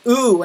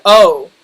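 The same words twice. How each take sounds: First: OOH, a rounded "oo" vowel; Canadian-style O. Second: Said in the usual way. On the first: Shown as a demonstration. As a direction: turn the O into "ooh". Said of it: "sometimes I'll say them as". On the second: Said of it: "ooh instead of oh".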